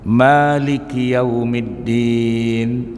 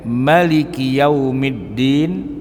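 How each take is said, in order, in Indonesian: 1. Vokal pertama Maliki dibaca panjang. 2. Vokal pertama Maliki dibaca pendek. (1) "bisa dibaca panjang" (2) "kalau dibaca pendek"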